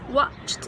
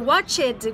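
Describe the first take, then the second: First: The ending sounds smooth and short. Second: The ending sounds heavier and less smooth. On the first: The speaker calls it right. "fica mais fácil falar watched" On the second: The speaker calls it wrong. "do que watched"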